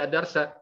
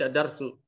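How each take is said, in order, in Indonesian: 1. Kata ini berakhir dengan vokal a. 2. Kata ini berakhir dengan vokal u. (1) "Tetap dibaca ad-darsa" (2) "Jangan dibaca ad-darsu"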